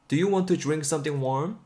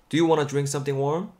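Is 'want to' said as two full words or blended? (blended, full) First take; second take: full; blended. First: 'Want to' is said as two full words. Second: 'Want to' is blended quickly into 'wanna'.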